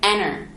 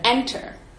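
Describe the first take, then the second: First: The unstressed t sounds more like an n. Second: The unstressed t is said as a clear t. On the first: "sounding more like an N" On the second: "instead of enter"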